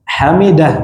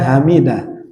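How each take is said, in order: First: The first h is harsh and breathy from the throat. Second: The first h is a soft, light breath. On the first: It means the one who praises. The speaker calls it right. "Hamidah terpuji" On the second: It means extinction or death. The speaker calls it wrong. "hamidah kematian"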